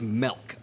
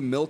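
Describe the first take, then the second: First: The vowel sounds like the 'e' in 'bet'. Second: The vowel sounds like the 'i' in 'sit'. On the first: This is another person's regional pronunciation. "she says melk" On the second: This is the speaker's own pronunciation. "I say milk"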